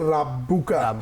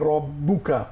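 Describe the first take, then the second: First: The r is pronounced light and thin. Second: The r is pronounced heavy and full. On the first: The speaker calls it wrong. "অনেকে ভুল করে বলে" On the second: The speaker calls it right. "বলতে হবে রব্বুকা"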